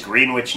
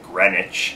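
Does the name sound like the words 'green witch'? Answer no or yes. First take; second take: yes; no. First: The name sounds like the words 'green witch'. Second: The name does not sound like 'green witch'. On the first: This is how the local New Jersey town is said. The speaker calls it right. "so you make sure that you pronounce the name correctly. But it is Greenwich" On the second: This is how the Connecticut town is said. The speaker calls it wrong. "They don't pronounce it like Greenwich, Connecticut"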